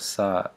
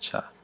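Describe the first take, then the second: First: It begins with an s sound. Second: It begins with a ch sound. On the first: The speaker calls it wrong. "will use the S sound" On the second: The speaker calls it right. "correct grammatical way to say a word that begins with this letter"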